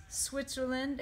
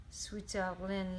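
First: Said in the usual way. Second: "Switzerland" slowly, French-style, as "switelin"; a light French take on "Switzerland"; French accent. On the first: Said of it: "attempt this in my best French accent". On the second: Acted. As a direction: drop the English z and end nasally in a French accent. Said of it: "in my best French accent".

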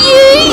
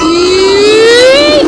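First: High, loud burst of a yell; excited yeet. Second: Loud yelled yeet, a bit less high; excited yeet. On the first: Vlogger cheering his family's ride as it drops, loud high yell. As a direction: fling the word out like a launch. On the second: Vlogger repeating the cheer for the ride, loud yell. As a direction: toss it out again, joking along. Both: Real, not acted.

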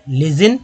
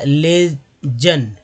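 First: "लेजिन" in one piece, ending in -zin; joined-up reading. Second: "लेजन" very slowly as ले, pause, जन; split into syllables. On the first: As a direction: say "लेजिन" without a break. Teacher repeats the word joined up. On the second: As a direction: separate the two halves of "लेजन". Teacher breaks a word into syllables. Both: Shown as a demonstration.

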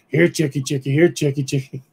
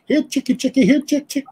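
First: Raspy voice. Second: High singsong chicken call. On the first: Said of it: "heard this raspy voice from the woods go". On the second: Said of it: "he'd go". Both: Retold or imitated.

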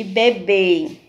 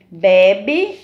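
First: "bebê" with long, closed, stressed final BÊ; stress on final syllable. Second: "Bebe" with open, stressed first BE, weak ending; stress on first syllable. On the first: Teacher contrasting two board words, "bebê" stressed at the end. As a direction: say "bebê" slowly, landing on the last syllable. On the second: Teacher contrasting two board words, "Bebe" stressed at the start. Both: Shown as a demonstration. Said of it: "todas têm acento circunflexo".

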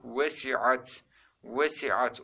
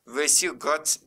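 First: "Vesiat" with no G, carefully sounded; correct reading. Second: "Vesigat" with a hard G in the middle; wrong reading. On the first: Teacher repeats for students the correct reading. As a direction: glide from I to A in "Vesiat". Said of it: "Nasıl okuduk?". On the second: Teacher quizzes students with a wrong reading. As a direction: put a G before the A in "Vesigat". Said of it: "diye okuduk mu?". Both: Shown as a demonstration.

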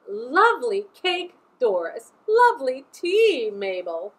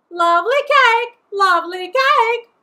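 First: Lightly voiced ladies at tea, swooping pitch; chit-chat with a lilting swoop; chattering ladies. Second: Loud, high squawked repetition; parrot mimicking ladies. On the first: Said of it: "they chitter and chatter". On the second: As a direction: screech it twice like a parrot. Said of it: "all parrots do". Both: A narrator's reading.

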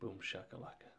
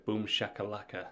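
First: Muttered softly under the breath; quiet repeat. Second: Punchy showman shout of boom shakalaka; hype catchphrase. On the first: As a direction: throw it away, barely audible. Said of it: "Yeah, you heard it". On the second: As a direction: sell it like a hype man. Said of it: "as the metrology would say". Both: Retold or imitated.

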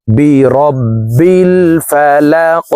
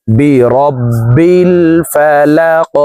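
First: "বি রব্বিল ফালাক" chanted slowly and melodically; tajweed chant of "Falaq"; chanted recitation. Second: "বি রব্বিল ফালাক" very slowly, doubled b and qalqala k; slow correct reading. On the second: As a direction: read "রব্বিল" with the b held twice. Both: Shown as a demonstration. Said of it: "শব্দটি এইভাবে পড়ব".

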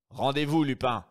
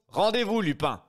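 First: Firm louder call to surrender; stern command. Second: Much higher, louder barked order; loud command. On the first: Brigadier Folenfant aiming at Lupin, firm loud order. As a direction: order him to give up. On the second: Brigadier Folenfant repeating his order to Lupin, shouting. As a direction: bellow the surrender order. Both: Acted.

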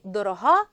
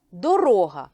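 First: Дорога said as дорога́, stress on the final -га; stress on the last syllable. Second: Дорога said as доро́га, stress on -ро-; stress on the middle syllable. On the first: Teacher demonstrating adjective stress дорога́ to pupils. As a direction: put the weight on the end of дорога. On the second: Teacher demonstrating noun stress доро́га to pupils. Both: Shown as a demonstration. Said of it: "наголос іноді може змінювати значення слова".

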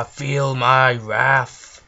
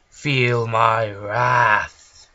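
First: Slow, booming villain threat; enraged boss roar. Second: Slow, loud villain line; villain threat. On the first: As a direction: loom over them, drawing each word out. Villain casting spell. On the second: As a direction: drag out every word menacingly. Villain casting spell again. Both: Pretend.

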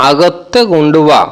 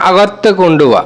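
First: আগত্তে কুণ্ডুবা drawn out slowly, each syllable clear; slow careful model of আগত্তে কুণ্ডুবা; slow repeat. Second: Said in the usual way. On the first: Shown as a demonstration. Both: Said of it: "Malayalam ভাষায় আমরা বলবো".

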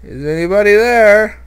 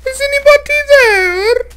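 First: Nervous higher, louder call; scared call into the dark. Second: Thin ghostly high call; haunt the cave with a ghost voice; eerie high-pitched Is anybody there; spooky falsetto. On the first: Real, not acted. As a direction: afraid of what answers. Scared calling into cave. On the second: Pretend.

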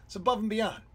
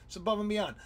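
No difference in how they are said.

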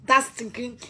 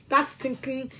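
The two takes are said the same way.

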